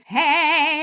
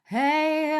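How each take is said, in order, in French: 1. La voix a un twang fort, vif et perçant. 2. La voix a seulement un twang léger, plus doux. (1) "les voix qui sont très très très twangées" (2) "un tout petit peu twangé"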